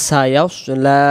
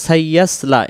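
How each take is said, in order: First: "সায়াস লা" as sa-yaws-laa; dark full s in "সায়াস লা"; correct heavy sad. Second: "সাইয়াস লা" with flat a and thin s; "সাইয়াস লা", doubled y and light seen; wrong unrounded form. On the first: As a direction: round "সায়াস" and lengthen "লা". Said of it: "উচ্চারণ হবে সায়াস". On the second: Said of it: "এমন হবে না". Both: Shown as a demonstration.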